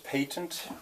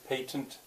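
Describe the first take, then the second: First: It is said in a British way. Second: It is said the American way, with a glottal stop. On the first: "he says patent" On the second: "a glottal stop there"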